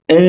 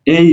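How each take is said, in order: First: Said in the usual way. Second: এই said with a little extra push; এই, lightly stressed as a pronunciation demo; slight force. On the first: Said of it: "ই এর উচ্চারণ হবে এ". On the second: Shown as a demonstration. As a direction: press a little harder on এই. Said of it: "একটু জোর প্রয়োগ করে".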